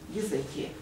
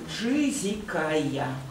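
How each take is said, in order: First: The name is pronounced in its traditional Russian form. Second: The name is pronounced following English sound rules. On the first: The speaker calls it right. "в русских переводах Библии Езекия" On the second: The speaker calls it wrong. "по правилам английской фонетики"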